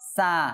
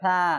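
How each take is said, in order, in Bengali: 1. ব্যঞ্জনটি একটি হিসহিসে s ধ্বনি। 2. ব্যঞ্জনটি একটি নরম th ধ্বনি। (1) "আর যদি জিহ্বার ভিতরে রাখি দেখেন সা, সাটা আসবে না, এটা সিন হয়ে যাবে" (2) "জিহ্বার আগা বাইর করে দাঁতের আগায় লাগাই দিতে হবে, দেখছেন এভাবে সা"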